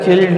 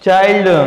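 First: The vowel is a short 'i'. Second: The vowel is the diphthong 'eye'. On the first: The speaker calls it wrong. "ह्याला चिल्ड नाही वाचायचं" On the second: The speaker calls it right. "चाइल्ड वाचायचं"

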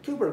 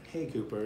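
First: The name is said loudly and frantically. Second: The name is said softly and calmly. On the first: The dog would be made more anxious. The speaker calls it wrong. "I'm not gonna do it like, Cooper, Cooper, Cooper... not like that" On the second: The dog is comforted and calmed. The speaker calls it right. "just, hey, Cooper, you're all right"

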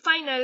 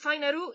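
First: It is pronounced like the English word final. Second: It is pronounced with a German pronunciation. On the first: The speaker calls it wrong. "ni siquiera es Final" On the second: The speaker calls it right. "es Finaru, y está en alemán"

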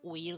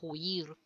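First: The word starts with a silent h. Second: The word starts with an aspirated h. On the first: "en vez de decir huir" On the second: "La aspiración de la H inicial"

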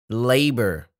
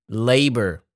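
No difference in how they are said.

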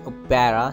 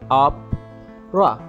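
First: The middle vowel is pronounced fully. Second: The middle vowel is dropped. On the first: The speaker calls it wrong. "don't say opera" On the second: The speaker calls it right. "say opera"

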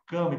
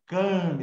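First: The name is said with a slack, lazy mouth. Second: The name is said with a full, open mouth. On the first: "boca mole" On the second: "a boca é cheia"

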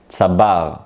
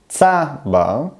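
First: The stress is on the second syllable. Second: The stress is on the first syllable. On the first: The cactus plant. "אני מדגיש את החלק השני, את ההברה השנייה, את הבר" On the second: A person born in Israel. "אני מדגיש את ההברה הראשונה, את הצדי"

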